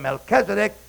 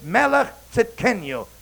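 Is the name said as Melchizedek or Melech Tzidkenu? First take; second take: Melchizedek; Melech Tzidkenu. First: The name is said as one word, Melchizedek. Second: The name is said as two words, Melech Tzidkenu. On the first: The speaker calls it wrong. "We call him Melchizedek, but that's a wrong pronunciation" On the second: The speaker calls it right. "It's Melech Tzidkenu"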